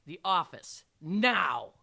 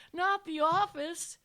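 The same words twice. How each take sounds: First: Loud, firm order; stern teacher's loud command. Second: High, loud, slow plea; hammed-up student begging; pleading. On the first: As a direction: order it forcefully, no argument. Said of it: "I commanded". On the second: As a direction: beg dramatically, stretching the words. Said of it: "he pleaded". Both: A narrator's reading.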